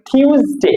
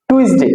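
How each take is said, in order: First: টিউসডে as THYOOS-day, aspirated t; correct pronunciation. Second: টুইসডে as TUIS-de, with "ui"; wrong pronunciation. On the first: Teacher correcting the childhood habit, correct pronunciation. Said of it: "এটা হচ্ছে কি". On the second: Teacher quoting what we say, wrong pronunciation. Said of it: "আমরা বলি". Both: Shown as a demonstration.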